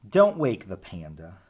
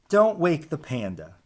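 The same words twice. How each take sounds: The two takes are said the same way.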